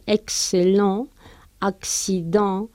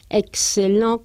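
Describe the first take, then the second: First: Excellent y accident muy despacio, con ks; slow French demo. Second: Excellent despacio, con la x como K S; slow French demo. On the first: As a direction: alarga Excellent y accident marcando ks. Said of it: "la pronunciamos como K S". (pronunciación lenta con ks) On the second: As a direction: pronuncia excellent con ks claro. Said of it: "o bien dos Cs". (excellent lento, marcando ks) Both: Shown as a demonstration.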